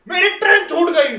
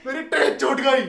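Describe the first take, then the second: First: Loud, high furious shout; angry yell. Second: A lighter mock shout, slightly raised; milder retold yell. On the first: Retold or imitated. Passenger yelling at the police who held him back, angry shout. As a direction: yell it in their faces. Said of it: "मैं ऐसे चिल्ला के उन पे बोलता हूँ". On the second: Passenger telling the police again that his train left, milder mock yell. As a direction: repeat the complaint with less force. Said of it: "मैं उनके मुंह पे चिल्लाता हूँ".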